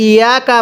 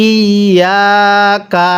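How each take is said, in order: First: Quick ইয়া কা without the doubled ya; mistaken reading. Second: Slow, held ইয়া কা with doubled ya; correct tashdid. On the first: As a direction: run ইয়া কা together short, dropping the tashdid. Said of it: "এখানে অনেকে একটা ভুল করি". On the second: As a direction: lean long on the ya of ইয়া, then add কা. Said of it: "কিভাবে পড়তে হবে". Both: Shown as a demonstration.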